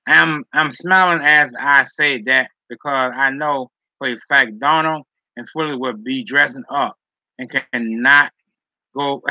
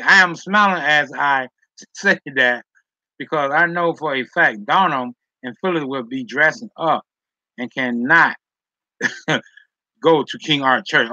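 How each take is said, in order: First: Said in the usual way. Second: Can't stop laughing while reading. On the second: Real, not acted. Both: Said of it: "Now I'm laughing".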